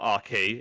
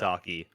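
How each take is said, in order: First: The consonant is sounded hard and harsh. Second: The consonant is sounded soft and gentle. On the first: The speaker calls it wrong. "So it's not Arky" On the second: The speaker calls it right. "it's like a softie as opposed to a harshy"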